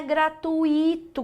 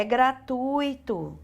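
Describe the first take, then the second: First: Gratuito split as gra-tu-Í-to, stressed on the i; wrong prosody. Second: Gratuito stressed on TUI, with the u leading; correct prosody. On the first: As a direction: slowly hit the i in gratuito. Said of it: "não é gratuito". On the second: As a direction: draw out TÚI in gratuito. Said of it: "é gratuito". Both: Shown as a demonstration.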